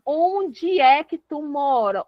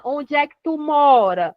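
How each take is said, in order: First: "Onde" drawn out and leaned on, slowly; slow down and hit "Onde" at the start; slow question punching "Onde"; stress on Onde. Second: Said in the usual way. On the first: Shown as a demonstration. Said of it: "O onde é o lugar". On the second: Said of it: "Onde quer dizer lugar".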